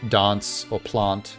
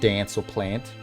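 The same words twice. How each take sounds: First: The A vowel is a broad, back 'ah' sound. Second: The A vowel is a flatter, front 'eh' sound. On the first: This is how the speaker, with a South African background, says it. "I'm more likely to say uh, dance or plant" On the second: This is how most Australians say it. "instead of dance or plant"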